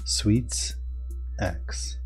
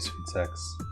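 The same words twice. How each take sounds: First: The name is said slowly, parts kept apart. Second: The name is said quickly, run together. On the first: It is heard as the intended name. The speaker calls it right. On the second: It sounds like a different, rude phrase. The speaker calls it wrong.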